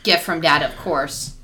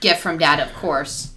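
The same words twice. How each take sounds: First: 'Of course' is joined onto 'gift from Dad'. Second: 'Of course' is joined onto 'gift from Dad'.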